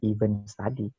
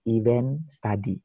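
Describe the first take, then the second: First: The first word sounds like 'even'. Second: The first word sounds like 'event'. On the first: The speaker calls it wrong. "bukan event study" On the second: The speaker calls it right. "bahasa Inggrisnya berarti event study"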